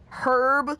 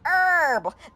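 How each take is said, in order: First: The word begins with an audible H sound. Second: The word begins without any H sound.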